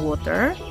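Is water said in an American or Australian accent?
American. It is said in an American accent. "American pasti bilang water"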